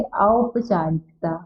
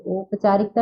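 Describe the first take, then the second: First: Slow औपचारिकता with "au" at the start; drawn-out correction, औपचारिकता opening on a diphthong औ; correct pronunciation. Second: औपचारिकता with plain "o" at the start; rejected example, औपचारिकता starting with ओ; mispronounced औपचारिकता. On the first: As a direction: model औपचारिकता slowly as "au-p-chaarikta". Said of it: "क्या होता है". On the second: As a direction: say औपचारिकता wrongly as "op-chaarikta". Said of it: "औपचारिकता नहीं होता है". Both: Shown as a demonstration.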